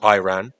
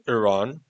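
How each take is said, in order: First: It is said the American way. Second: It is said the British way.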